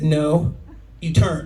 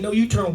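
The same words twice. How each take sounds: First: Slow "no", a pause, then "you turn" as a command; pause after NO. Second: Said in the usual way. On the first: Retold or imitated. Mom misreading the sign to the officer, "no" then separate "you turn". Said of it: "This is her excuse". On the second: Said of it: "I said, Ma'am".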